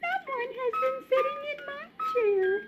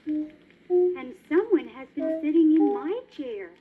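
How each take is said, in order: First: It is said in a little baby voice. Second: It is said in a middle-sized voice.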